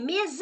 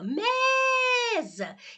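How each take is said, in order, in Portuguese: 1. A segunda sílaba é tônica e prolongada. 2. A primeira sílaba é tônica e prolongada. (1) "Você não gritou assim" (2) "A que se prolonga é essa daqui"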